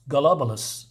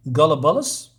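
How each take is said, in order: First: Gollubus said flat and falling, as if decided; settled pronunciation. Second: Gollubus tried with a questioning rise on the end; unsure pronunciation. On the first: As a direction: land firmly on Gollubus. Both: Shown as a demonstration. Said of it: "Is that how you say it?".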